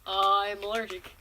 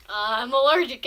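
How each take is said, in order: First: Said in the usual way. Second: Louder, firmer I'm allergic; a firm repeat of I'm allergic; insistent repeat. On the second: Retold or imitated.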